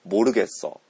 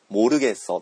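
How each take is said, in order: First: The first consonant sounds close to b. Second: The first consonant is a plain m sound.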